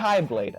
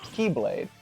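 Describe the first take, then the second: First: The first syllable sounds like 'kai'. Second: The first syllable sounds like 'key'. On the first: This follows the Greek letter's pronunciation. "X is pronounced Kai. So it should be" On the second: This is how the game actually says it. "But instead it's pronounced Keyblade"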